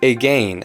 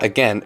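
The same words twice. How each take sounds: First: It is said exaggerated, following the spelling. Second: It is said in a relaxed, everyday way. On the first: This pronunciation is made to match the spelling. "exaggerating the pronunciations" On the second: This is the usual conversational pronunciation. "It's not"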